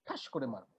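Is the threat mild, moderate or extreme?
mild. It sounds like a mild, casual threat.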